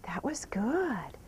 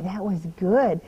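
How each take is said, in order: First: Slow, whispered "That was good."; whispered praise. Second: Said in the usual way. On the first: Real, not acted. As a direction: breathe "That was good." slowly with no voice.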